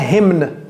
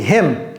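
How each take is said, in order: First: The word ends with an audible N sound. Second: The word ends with an M, no N. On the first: The speaker calls it wrong. "Ne prononcez pas le N. Ne dites pas hymne" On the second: The speaker calls it right. "Non, c'est him. Tout comme him"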